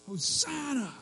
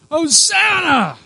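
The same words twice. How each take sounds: First: High, held-back cry of need; pleading cry. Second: Very high, loud, drawn-out shriek; desperate shriek. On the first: Preacher acts out crowd begging Jesus, pleading cry. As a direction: cry out pitched high, without shouting. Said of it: "but this cry". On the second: Preacher acts out crowds greeting Jesus, desperate shriek. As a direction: shriek it from the gut at full force. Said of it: "They were shrieking". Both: Acted.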